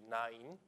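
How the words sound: The name is said with Japanese pronunciation. "The Japanese pronunciation would be"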